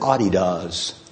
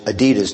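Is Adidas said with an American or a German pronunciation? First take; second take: German; American. First: It is said with the German pronunciation. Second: It is said with the American pronunciation. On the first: "They pronounce it Adidas" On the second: "we've Americanized Adidas too"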